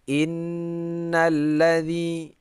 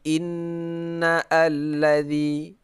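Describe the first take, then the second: First: The words run together with no separate vowel. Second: A separate vowel starts the second word. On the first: The speaker calls it right. "di pertengahan tidak dibaca" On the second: The speaker calls it wrong.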